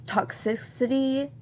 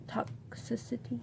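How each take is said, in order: First: Toxicity said aloud, higher and questioning; unsure word check. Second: Toxicity whispered under the breath; barely voiced, testing the word privately; checking to herself. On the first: Trying out a doubtful word aloud. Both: Real, not acted.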